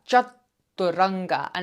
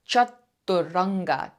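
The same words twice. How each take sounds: The two takes are said the same way.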